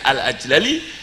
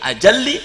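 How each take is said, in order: First: The two L sounds are split by a vowel. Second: The two L sounds are joined as one long L. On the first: The verse meter forces this form. The speaker calls it wrong. "tapi kena dorot nadom baca al ajlali, fakul idgham, tidak fasih" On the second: This is the proper form. The speaker calls it right.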